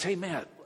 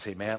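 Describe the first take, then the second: First: The greeting is said in an excited way. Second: The greeting is said in a subdued way.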